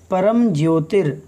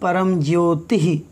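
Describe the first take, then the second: First: The word ends with an r sound. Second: The word ends with a breathy h sound. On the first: The word is joined to the next word. "यहाँ पर रा है" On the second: The word stands apart on its own. "ये रा विसर्ग बन जाएगा जब तोड़ेंगे हम इसे"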